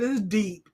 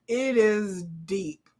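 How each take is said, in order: First: Said in the usual way. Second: Slow, drawn out. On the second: Shown as a demonstration. Slow emphatic repeat.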